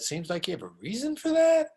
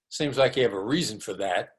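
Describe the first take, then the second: First: The pitch rises at the end. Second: The pitch falls at the end. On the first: The listener is invited to explain their reasons. The speaker calls it right. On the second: The listener is being called an idiot. The speaker calls it wrong.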